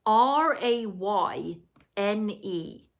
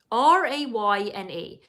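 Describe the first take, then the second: First: Spelling it out. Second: Said in the usual way. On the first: Shown as a demonstration. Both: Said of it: "it's spelled".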